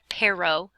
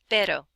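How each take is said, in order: First: The r is not a quick tap. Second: The r is a quick tap, like ladder. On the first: The speaker calls it wrong. "it's not pero" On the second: The speaker calls it right. "say it like the D in ladder"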